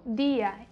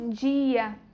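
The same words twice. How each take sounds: First: The d is a plain, hard d sound. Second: The d sounds like 'dj' before the i. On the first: This is how it is said in Spanish. "em espanhol já ficaria como dia" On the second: This is how Portuguese speakers here say it. "A gente fala como dia"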